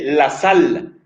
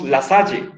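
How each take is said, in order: First: The final e is silent, ending on l. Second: The final e is pronounced as a vowel. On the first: "si nosotros respetáramos la pronunciación francesa, entonces sería simplemente la sal. El, la E final es muda, no suena" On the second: "la Real Academia autoriza no está mal si leemos La Salle"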